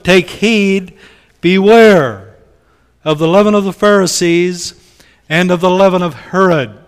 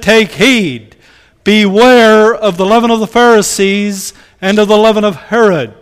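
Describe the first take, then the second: First: It is read in a calm, plain tone. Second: It is said in an urgent, desperate tone.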